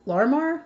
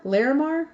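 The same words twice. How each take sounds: First: Larmar said as a tentative two-syllable guess; a fumbled first attempt at Larmar; unsure first try. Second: Larimar said in three syllables, still questioning; a second, slightly surer go at Larimar; corrected try. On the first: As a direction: sound out Larmar hesitantly, rising. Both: Real, not acted. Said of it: "I hope I can pronounce this".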